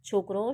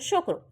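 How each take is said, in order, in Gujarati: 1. શબ્દ 'chh' અવાજથી શરૂ થાય છે. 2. શબ્દ 'sh' અવાજથી શરૂ થાય છે.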